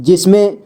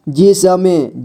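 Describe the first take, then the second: First: Said in the usual way. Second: जिसमें drawn out as जि-स-में; syllable by syllable. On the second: Shown as a demonstration. Teacher showing beginners how to read जिसमें, syllable by syllable. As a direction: sound out each letter of जिसमें. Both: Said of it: "जोड़ जोड़ करके ही पढ़ना होगा".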